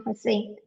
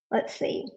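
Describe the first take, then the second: First: Said in the usual way. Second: Breathy whisper while searching; let's see under the breath, unvoiced; whispered to herself. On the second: Real, not acted. Searching files, muttering to herself.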